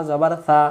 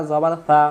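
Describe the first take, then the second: No difference in how they are said.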